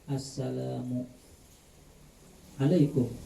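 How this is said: There is a pause between the two words. The speaker calls it wrong. "Berjeda. Awas jedanya"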